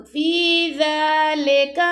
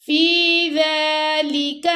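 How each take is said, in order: First: فی ذالک with the daal too hard; wrong recitation. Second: Sung, correct recitation. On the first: Teacher demonstrating the wrong reading to students. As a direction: show the mistake in ذالک. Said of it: "تو یہ غلط ہو جائے گا". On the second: Teacher showing the right way to recite, chanted slowly. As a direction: chant فی stretched, then ذالک gently. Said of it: "فی کو ہم نے دو سیکنڈ لمبا کیا". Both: Shown as a demonstration.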